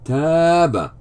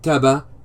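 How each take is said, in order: First: The vowel after the first consonant is long. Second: The vowel after the first consonant is short. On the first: The speaker calls it right. "Some extension of the short vowel, fatha" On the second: The speaker calls it wrong. "Not taba"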